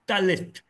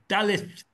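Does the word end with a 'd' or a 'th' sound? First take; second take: th; th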